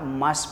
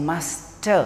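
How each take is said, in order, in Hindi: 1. आखिरी t हल्के से बोला जाता है। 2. आखिरी t ज़ोर से बोला जाता है। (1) "ट पे ज़्यादा स्ट्रेस नहीं डालना, मस्ट बोले साफ तरीके से" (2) "नॉर्मली पीपल प्रोनाउंस मस्ट"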